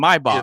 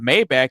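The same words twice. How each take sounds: First: The name is said the original way. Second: The name is said the common everyday way. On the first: The speaker calls it right. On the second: The speaker calls it wrong. "that's not how you say it"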